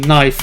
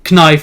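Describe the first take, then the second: First: The initial k sound is silent. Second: The initial k sound is pronounced. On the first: "the K just kind of becomes silent" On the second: "they don't say knife"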